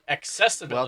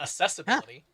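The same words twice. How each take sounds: First: The start is said with a clear k sound. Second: The start is said without the k sound. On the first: The speaker calls it right. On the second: The speaker calls it wrong.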